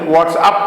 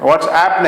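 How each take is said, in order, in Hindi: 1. आखिरी शब्दांश में 'up' वाला 'u' है। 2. आखिरी शब्दांश में 'app' वाला 'a' है। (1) "व्हाट्सअप कहते हैं" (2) "नहीं"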